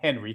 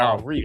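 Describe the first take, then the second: First: The name is said with an American pronunciation. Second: The name is said with a French pronunciation. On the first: This is the local adapted pronunciation. "we'll call him Henry because we're in in the states" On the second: This is how the name is really pronounced. "it's actually Henri. He's French"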